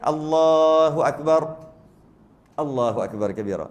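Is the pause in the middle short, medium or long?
long. There is a longer pause in the middle.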